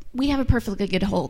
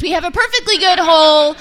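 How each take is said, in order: First: Said in the usual way. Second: "perfectly" said loud and emphatic. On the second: Shown as a demonstration. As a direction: lean hard on "perfectly" with a louder voice.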